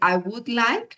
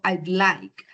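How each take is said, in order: First: 'Would' is said as a full separate word. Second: 'Would' is shortened to a 'd' sound. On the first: "en vez de decir" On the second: "fíjese que digo I'd like"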